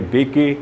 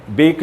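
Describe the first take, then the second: First: बेके in two syllables, "bay-kay"; sounded final E. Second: Said in the usual way. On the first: Shown as a demonstration. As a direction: voice the silent E at the end of बेके. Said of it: "नहीं कहा करते". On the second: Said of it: "उसे बोला नहीं जाता है".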